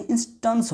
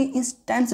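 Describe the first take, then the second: First: इंस्टेंस with "tuns" at the end; correct "a" sound. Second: इंस्टेंस with "tens" at the end; wrong "e" sound. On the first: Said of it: "इंस्टेंस होगा". (इंस्टेंस में "टंस" की ध्वनि) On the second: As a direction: say इंस्टेंस with a clear "e". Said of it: "ना कि इंस्टेंस नहीं". (इंस्टेंस में "टेंस" की ध्वनि) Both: Shown as a demonstration.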